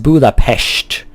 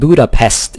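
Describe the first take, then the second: First: The final consonant is an sh sound. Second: The final consonant is a plain s sound. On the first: The speaker calls it right. "S is pronounced uh, sh like that" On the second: The speaker calls it wrong. "it's not Budapest"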